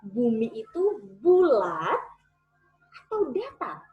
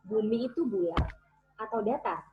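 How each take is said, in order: First: It is said lively, with expression and energy. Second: It is said flatly, without expression or energy. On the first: The speaker calls it right. "Ketika saya memberikan ekspresi" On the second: The speaker calls it wrong. "tanpa ekspresi"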